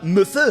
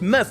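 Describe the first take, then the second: First: The first E sound is pronounced. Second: The first E sound is silent. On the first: The speaker calls it wrong. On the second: The speaker calls it right. "You don't hear it anymore, it's"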